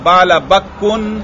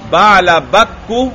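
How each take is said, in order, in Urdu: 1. یہ لفظ ایک اضافی ن کی آواز پر ختم ہوتا ہے۔ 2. یہ لفظ سادہ پیش پر ختم ہوتا ہے۔ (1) "یہ تنوین اگر میں پڑھوں یہ غلط ہے" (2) "کاف پر میں پیش پڑھ رہا ہوں، تنوین نہیں پڑھ رہا"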